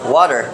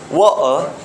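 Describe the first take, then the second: First: It is said with an American accent. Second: It is said with a British accent. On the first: "in American English, you will hear rather water" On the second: "And in British English, you will try water"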